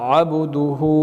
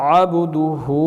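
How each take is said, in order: Both takes have the same delivery.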